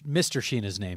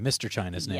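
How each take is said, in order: First: The surname begins with a soft 'sh' sound. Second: The surname begins with a hard 'ch' sound. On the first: This is the original French pronunciation. "it should be pronounced Sheena" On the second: This is the family's adapted pronunciation. "we need the ch"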